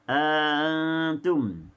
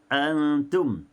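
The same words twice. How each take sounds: First: The second glottal stop is softened, vowel lengthened. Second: Both glottal stops are fully pronounced. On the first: "ditashilkan hamzah yang kedua dan diidkhalkan alif" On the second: "bacaan tahqiqnya uh, oleh Hafs al-Asim"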